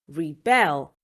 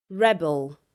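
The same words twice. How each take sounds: First: "rebel" as a verb, re-BEL; stress on second syllable. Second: "rebel" as a noun, REB-el; stress on first syllable. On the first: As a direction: hit the last syllable of "rebel". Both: Shown as a demonstration. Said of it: "nouns that can also be verbs".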